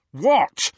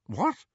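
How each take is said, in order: First: Loud, high snarl. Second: High, startled query; defensive. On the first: Ron rounding on Hermione, snarling. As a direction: fling it back angrily. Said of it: "he snarled at Hermione". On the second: Harry answering whether he was possessed, defensive. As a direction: bristle at the suggestion. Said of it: "he said defensively". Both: A narrator's reading.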